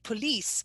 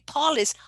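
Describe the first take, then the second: First: The stress is on the second syllable. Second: The stress is on the first syllable. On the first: "you don't say" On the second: "on the first, with the tonic syllable is the first syllable"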